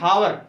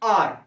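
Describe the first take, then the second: First: The word starts with an audible h sound. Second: The word starts directly with a vowel sound. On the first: The speaker calls it wrong. "कई लोग पढ़ते हैं हावर" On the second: The speaker calls it right. "इसको बोलते हैं लेकिन आर"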